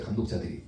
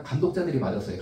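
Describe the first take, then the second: First: 감독자들이 whispered, unvoiced and soft; whispered repeat. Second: Said in the usual way. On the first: Shown as a demonstration. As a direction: breathe 감독자들이 as an aside.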